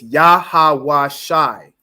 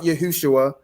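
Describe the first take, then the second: First: The vowels are only ah and i sounds. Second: The vowels include u sounds. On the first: The speaker calls it right. "You only have ah and I sounds" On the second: The speaker calls it wrong. "is not"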